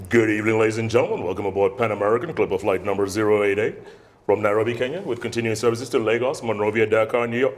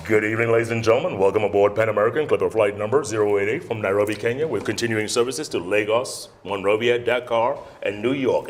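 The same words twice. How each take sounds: First: Airline PA announcement repeated. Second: Smooth, measured captain-style cabin announcement; airline PA announcement. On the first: Trainee repeating the announcement for the instructor. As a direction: do the PA read again, steady. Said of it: "let me try it again". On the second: Trainee on the plane microphone, announcer voice. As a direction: read it like a flight attendant on the PA. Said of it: "I'm acting, let me act". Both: Shown as a demonstration.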